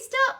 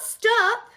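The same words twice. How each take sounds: First: It is said playfully, like a laughing child. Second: It is said seriously, like a real demand. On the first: The child is enjoying it and does not mean it. "In the way all children do when you tickle them and they're laughing" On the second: The child really wants it to end. "Not stop"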